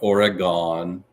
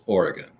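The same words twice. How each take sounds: First: The word uses the pronunciation the speaker rejects. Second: The word uses the pronunciation the speaker endorses. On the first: The speaker calls it wrong. "it is not Oregon" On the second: The speaker calls it right. "It is Oregon, right?"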